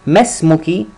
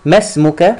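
First: ما اسمك ending in a clear "i", ismuki; ما اسمك with a final "ki" for a woman; feminine ending. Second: ما اسمك ending in a clear "a", ismuka; ما اسمك with a final "ka" for a man; masculine ending. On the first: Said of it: "for a woman". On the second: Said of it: "for a man". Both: Shown as a demonstration.

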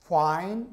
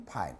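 First: Fine with a clear F, pitch rising; labiodental F. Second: Fine turned into pine, short and falling; bilabial P. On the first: Teacher repeating the contrast, fine with a true F. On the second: Teacher repeating the mistake, fine said as pine. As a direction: pop the start of fine with both lips. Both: Shown as a demonstration. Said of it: "다른 발음이죠".

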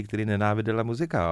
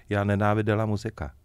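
First: Said in the usual way. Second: Flat, dry mock of the waitress's curt reply; dry deadpan. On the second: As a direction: deliver it bone-dry, no warmth. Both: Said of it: "ona mu řekla úplně suše".

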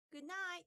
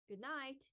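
First: High, sweet good night; sweetly. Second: Said in the usual way. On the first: A narrator's reading. Boys answer Father at bedtime, high and sweet. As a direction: sound like well-behaved little boys. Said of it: "said the boys sweetly".

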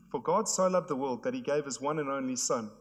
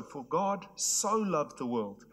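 First: Said in the usual way. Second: So leaned on, the whole line slow; slow down and weigh the word so; stress on so. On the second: Shown as a demonstration. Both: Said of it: "it's this word "so".

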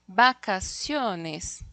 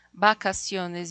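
First: "vacaciones" drawn out very slowly; slow word demo. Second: Said in the usual way. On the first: Shown as a demonstration. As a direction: stretch out "vacaciones" syllable by syllable. ("vacaciones" muy lento, sílaba por sílaba) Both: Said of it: "yo tengo aquí una cerrada y una abierta".

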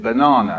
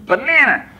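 First: Banana as "buh-NAH-nuh"; British "banana". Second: Put-on high Hispanic-accented kids' shout of Banana; Hispanic-American accent. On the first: Retold or imitated. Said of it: "and I said". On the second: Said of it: "particularly with Hispanic accents".

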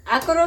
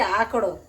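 First: આકરો, plain r before the final o. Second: આકડો, retroflex flap before the final o. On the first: Daughter checking the word for strong tea, આકરો with r. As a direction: say આકરો with a tapped r. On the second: Daughter checking the word for strong tea, આકડો with retroflex ḍ. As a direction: say આકડો with a curled-tongue ḍ. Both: Shown as a demonstration. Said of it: "આકરો કે આકડો?".

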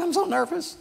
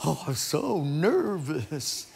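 First: Much higher squeaky take of so nervous; nervous little girl. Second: Slow, limp, relieved so nervous after it is over; drained relief. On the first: Sally telling her friend before the talent show, much higher. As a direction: squeak it like a scared child. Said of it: "and so she's so nervous". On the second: Sally back at her seat after reciting, slow and spent. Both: Retold or imitated.

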